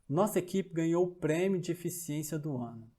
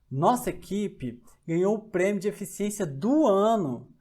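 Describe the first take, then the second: First: The sentence is read with even, neutral emphasis. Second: The word 'ano' at the end is strongly emphasized. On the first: "Observe a sentença" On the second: "Não foi da semana, não foi do mês, foi do ano"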